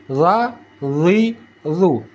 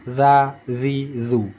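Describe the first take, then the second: First: "Za, zi, zu" with tongue root raised; dark, heavy voiced TH in "Za, zi, zu"; thick za. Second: "Za, zi, zu" with tongue root pressed down; light, flat voiced TH in "Za, zi, zu"; thin za. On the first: Teacher contrasting two letters, "Za, zi, zu" made thick. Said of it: "Naikkan pangkal lidah". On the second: Teacher contrasting two letters, "Za, zi, zu" kept thin. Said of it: "tekan ke bawah pangkal lidah". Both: Shown as a demonstration.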